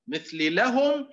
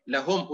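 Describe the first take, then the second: First: لهم slowed and pushed up; contrasting demonstration of لهم; slow stressed take. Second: Said in the usual way. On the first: Shown as a demonstration. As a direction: say لهم slowly with a high push.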